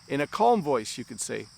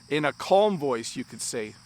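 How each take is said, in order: The two takes are said the same way.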